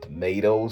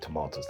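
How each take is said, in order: First: It is said in a New York accent. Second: It is said in the speaker's usual accent. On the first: "They say tomatoes" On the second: "instead of tomatoes"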